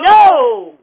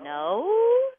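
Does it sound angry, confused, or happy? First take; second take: angry; confused. First: It is said in an angry tone. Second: It is said in a confused tone.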